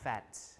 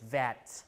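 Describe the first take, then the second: First: The word begins with a voiceless F sound. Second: The word begins with a voiced V sound. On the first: This is the northern and Midland dialect form. "but in North and Midland, fat" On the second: This is the southern dialect form. "In the South, people pronounce it vat"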